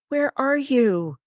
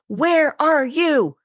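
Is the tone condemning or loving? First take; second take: loving; condemning. First: It sounds warm and caring. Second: It sounds harsh and accusing. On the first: The speaker is searching for the other with care. ""I'm looking for you."" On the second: The speaker is blaming the one being sought. "can either be condemning"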